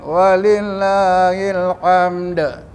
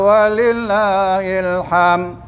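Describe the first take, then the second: First: The last word ends with a d sound. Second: The last word ends without a d sound. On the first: To Allah belongs all praise. The speaker calls it right. "Bagi Allah segala kepujian" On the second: To Allah belongs meat. The speaker calls it wrong. "bagi Allah daging"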